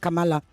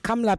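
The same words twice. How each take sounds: First: A vowel is sounded after the M. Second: No vowel is sounded after the M. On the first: The speaker calls it wrong. "not Kamala" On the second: The speaker calls it right. "The A after the M is a silent A"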